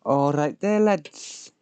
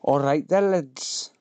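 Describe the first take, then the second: First: Mock Yorkshire greeting with lads pitched higher; hammed-up northern greeting; put-on northern accent, higher lads. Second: Lightly done northern greeting; put-on northern accent. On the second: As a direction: greet the lads in a mock Yorkshire accent. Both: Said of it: "I don't know what accent he's supposed to be".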